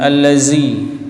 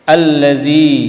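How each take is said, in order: First: The consonant is a plain 'z' sound. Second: The consonant is a voiced 'th' sound. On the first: The speaker calls it wrong. "bukan allazi" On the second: The speaker calls it right. "zi bukan allazi"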